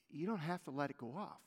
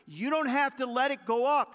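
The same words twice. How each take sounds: First: Soft repeat. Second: Forceful preaching. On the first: Same line repeated softly. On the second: Preacher's loud first take. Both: Acted.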